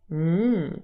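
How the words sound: The hum sounds sexy.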